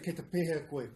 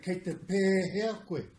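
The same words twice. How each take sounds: First: The e in pēhea is said short. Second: The e in pēhea is held long. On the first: The speaker calls it wrong. "You don't say" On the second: The speaker calls it right. "it's got a macron on the E. So you say"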